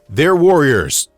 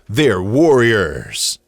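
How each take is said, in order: First: The word endings are cut short and plain. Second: The word endings are drawn out like an announcer.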